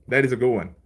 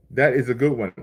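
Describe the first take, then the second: No difference in how they are said.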